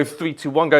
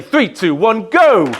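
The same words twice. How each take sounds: First: Said in the usual way. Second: Louder, higher count-in on go; loud crowd-rousing countdown. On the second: Real, not acted. Counts crowd down for level two.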